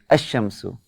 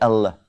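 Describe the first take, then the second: First: No L sound; the sh is doubled instead. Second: A clear L sound is heard before the sh. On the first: The speaker calls it right. "I say Ash-Shamsu" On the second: The speaker calls it wrong. "I don't say"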